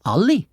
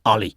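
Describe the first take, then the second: First: Alle mit steigender Frage-Melodie; «Alle?» als Frage, Stimme geht am Ende hoch; fragend. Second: «Alle» fallend und tiefer als Feststellung; «Alle» bestimmt nach unten gesprochen; feststellend. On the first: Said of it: "hat Clara gefragt". (Frage mit steigendem Ton) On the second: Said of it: "habe ich gesagt". (fallender Ton, feststellend) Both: Acted.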